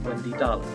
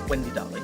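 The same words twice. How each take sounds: First: Darling is said as a surname. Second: Darling is said as a term of endearment. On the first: It is her family name. The speaker calls it right. "That's her name" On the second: Someone is affectionately addressing Wendy. The speaker calls it wrong. "I say it like it's not her name"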